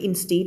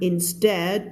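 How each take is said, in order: First: "instead" with a long ee, in-STEED; wrong reading of instead. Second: "instead" with a short e, in-STED; correct reading of instead. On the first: Teacher warning students, "instead" misread as in-steed. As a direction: say "instead" to rhyme with "need". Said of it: "ไม่ instead นะ". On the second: Teacher correcting for students, "instead" as in-sted. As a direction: say "instead" to rhyme with "bed", slowly. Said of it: "ไม่ instead นะ instead". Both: Shown as a demonstration.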